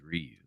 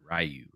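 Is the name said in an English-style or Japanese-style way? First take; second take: Japanese-style; English-style. First: The name is said with Japanese-style pronunciation. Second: The name is said with English-style pronunciation. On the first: The speaker calls it right. "the way to say it properly" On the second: The speaker calls it wrong. "as you pronounce it in like an English way"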